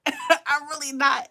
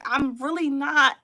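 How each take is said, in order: First: Slow, laughing denial. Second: Said in the usual way. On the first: Real, not acted. Host to her viewers, laughing slowly through the denial. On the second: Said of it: "And I'm like".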